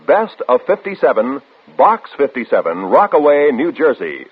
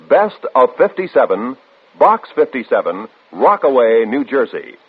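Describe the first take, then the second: No difference in how they are said.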